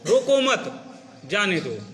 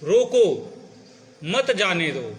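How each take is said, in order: First: There is a pause right after 'mat'. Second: There is a pause right after 'roko'. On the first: Do not stop the person; let them go. "इसी शब्द को दूसरी जगह रुक जाओ" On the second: Stop the person; do not let them go. "उसको रोक लीजिए, उसे जाने मत दो"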